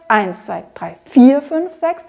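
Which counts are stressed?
eins, vier. Both eins and vier are stressed equally. The speaker calls it wrong. "Wir spielen also nicht so sehr"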